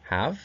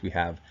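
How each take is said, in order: First: Single out the word have, ending up; stress on have. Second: Said in the usual way. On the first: Shown as a demonstration. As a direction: have lifted on a rising tune. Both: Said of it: "those are paired with".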